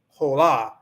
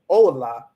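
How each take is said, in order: First: The stress falls on the second syllable. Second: The stress falls on the first syllable. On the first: The speaker calls it wrong. "let's say you say this hola" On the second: The speaker calls it right. "make sure that you stress the O"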